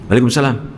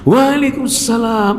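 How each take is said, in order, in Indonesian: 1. Balasannya terdengar kesal dan marah. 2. Balasannya terdengar hangat dan penuh kasih sayang. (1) "ini berarti lagi lagi marah" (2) "karakternya berarti cinta"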